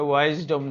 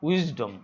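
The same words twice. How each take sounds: First: ওয়াইজডম said with the long "wise" vowel, like "why-zdom"; wrong pronunciation. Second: উইজডম with a short "wiz" vowel, not "wise"; correct pronunciation. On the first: Teacher showing students the wrong way to say ওয়াইজডম. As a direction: say ওয়াইজডম the mistaken way, with the "why" sound. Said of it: "এটা ওয়াইজডম নয়". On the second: Teacher giving students the correct উইজডম after the wrong one. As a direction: say উইজডম with a short clipped i at the start. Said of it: "উচ্চারণটা মনে রাখবে". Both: Shown as a demonstration.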